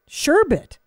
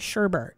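First: The word has no R in the second syllable. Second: The word has an R in the second syllable. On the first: The speaker calls it right. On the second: The speaker calls it wrong.

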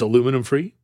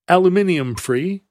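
First: Aluminum is said with four syllables, American style. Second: Aluminium is said with five syllables, British style.

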